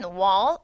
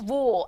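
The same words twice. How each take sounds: First: It is said in an American accent. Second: It is said in a British accent. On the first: "영국식 발음은 wall 아니고" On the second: "영국식 발음은"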